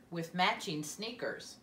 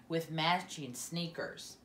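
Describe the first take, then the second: No difference in how they are said.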